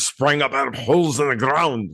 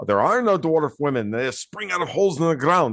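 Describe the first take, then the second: First: A hint of a Scottish Gimli brogue; half-hearted Scottish dwarf accent; lightly put-on Scottish accent quoting the dwarf; terrible Scottish accent. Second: Scottish dwarf voice. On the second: Retold or imitated. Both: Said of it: "which I do a terrible Scottish accent".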